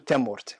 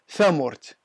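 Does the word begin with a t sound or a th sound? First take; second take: t sound; th sound. First: The first sound is a hard t. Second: The first sound is a soft th. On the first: This is the original form of the word. "أغلب الأمازيغ يقولوا تامورت" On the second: This is a local, simplified pronunciation. "اللي ينطقوا في الذال والثاء"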